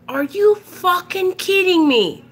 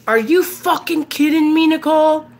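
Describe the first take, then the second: First: Pissed-off dad. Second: High, tense mock-angry dad; pissed-off dad. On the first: Retold or imitated. Dad repeating himself to clueless daughter, incredulous and pissed off. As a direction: repeat it as an exasperated dad, stretching the words. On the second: Dad phoning daughter about the front yard, pissed off. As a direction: imitate an outraged father confronting his daughter. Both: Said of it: "He was pissed".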